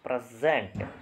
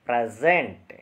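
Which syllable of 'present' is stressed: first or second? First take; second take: first; second. First: The stress is on the first syllable. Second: The stress is on the second syllable. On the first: It is used as a noun. "First syllable ಮೇಲೆ stress ಇದೆ" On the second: It is used as a verb. "Verb ಇದ್ದರೆ usually ಎಂಡಲ್ಲಿರುತ್ತೆ"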